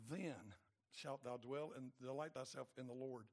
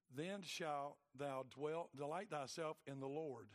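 First: Said in the usual way. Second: Then shalt thou dwell drawn out slowly, each word weighted; slow emphatic reading. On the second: Shown as a demonstration. Preacher reading a circled verse to the congregation, slow and weighty. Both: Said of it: "I put a circle around that".

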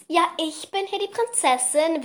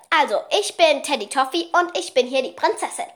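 First: High, haughty little princess; bossy princess voice. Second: Bossy little princess guinea pig voice; lightly voiced pet princess; piglet voice. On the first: Retold or imitated. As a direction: play the spoiled princess. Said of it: "halt so richtig so". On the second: Shown as a demonstration. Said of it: "ihre Stimme ist, ist die hier".

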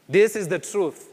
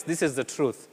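First: "This" lifted and hit harder, falling after; stress on This. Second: Said in the usual way. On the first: Real, not acted. Preacher insisting to the congregation, stressing "This". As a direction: punch "This" to drive it home.

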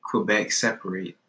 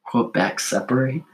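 First: Flat Quebec separate. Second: Questioning Quebec separate. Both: Shown as a demonstration. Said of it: "Separate needs an S".

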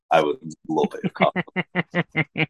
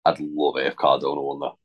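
First: "would love" drawn out slowly for emphasis; slow down and lean on "would love"; emphatic repeat. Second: Said in the usual way. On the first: Real, not acted. Co-host insisting on his wish for Cardona, "would love" slow and emphatic.

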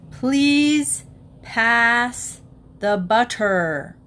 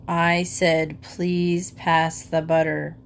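First: Please pass the butter, loud and stiff; loud, overly distinct request; father at dinner, booming for the butter. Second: Low, grim repeat of please pass the butter; slow, grim and lowered; father losing patience at dinner, low and grim. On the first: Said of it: "in a very loud voice". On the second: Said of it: "in a low, grim voice". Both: A narrator's reading.

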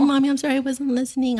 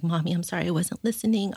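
First: High, louder voice, welling up; teary retelling. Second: Lightly voiced child apologizing; child's confession. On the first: Retold or imitated. Mom moved by her daughter's apology, teary and high-pitched. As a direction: choke up while quoting a child's apology. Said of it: "I'm getting teary". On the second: Mom quoting her daughter's confession, lightly imitated apology. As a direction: retell a little one's apology, lifting slightly at the end. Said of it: "she also confessed".

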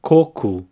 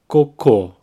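First: Coco, stress the first syllable and end in a U sound. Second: Cocô, stress on the final syllable; cocô with the weight on the last syllable; stress on the end. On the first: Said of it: "the emphasis is in the first syllable". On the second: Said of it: "the stress is at the end". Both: Shown as a demonstration.

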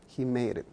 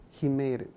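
No difference in how they are said.

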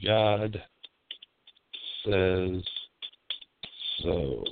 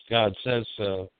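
First: "God" "says" "so" each as a separate word with long pauses, dropping lower; "God ... says ... so" spaced out, falling heavier on "so"; slow emphatic repeat. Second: Said in the usual way. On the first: Shown as a demonstration.

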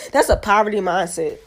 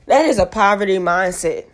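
First: Said in the usual way. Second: "That is" spelled out in full, with weight on THAT; emphatic restatement. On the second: Real, not acted. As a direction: hit THAT harder and say "is" as its own word. Repeats verdict in full for emphasis.

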